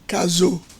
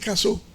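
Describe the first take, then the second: First: The middle consonant is a voiced z sound. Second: The middle consonant is a hissing s sound. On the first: This is how the name was meant to be said. "je disais Caso ... le S entre deux voyelles" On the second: This is how everyone actually said the name. "on disait Casso"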